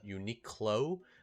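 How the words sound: The word is said with English pronunciation. "in English they call it Uniqlo"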